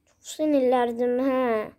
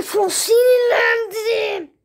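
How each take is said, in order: First: Said in the usual way. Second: Slow, loud, whiny cry of fake rage; mock angry wail. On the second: Playing along with the game, hammed-up angry wail. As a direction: stretch it out like a sulking kid.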